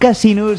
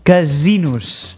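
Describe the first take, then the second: First: The middle s is a voiceless hiss. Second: The middle s is a buzzing voiced sound. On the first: The speaker calls it wrong. "a la intro he dit casinos" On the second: The speaker calls it right. "Amb essa sonora"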